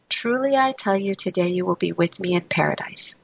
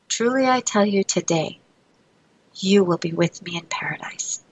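First: The pause comes before 'today'. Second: The pause comes after 'today'.

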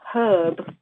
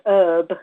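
First: The h at the start is pronounced. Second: The h at the start is silent. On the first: This is how the speaker's own English says it. The speaker calls it right. "We call it herb" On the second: This is how others say it. The speaker calls it wrong. "not herb"

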